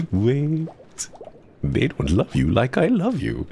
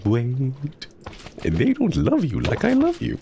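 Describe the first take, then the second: First: Higher, mock-tender Heimerdinger voice, light take; lightly voiced Heimerdinger, playful plea; Heimerdinger line. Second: Much higher, squeaky put-on Heimerdinger voice, full commitment; meme Heimerdinger line. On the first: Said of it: "my favorite one is a Heimerdinger impression". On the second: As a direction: go all in on the shrieking meme version. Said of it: "And that meme".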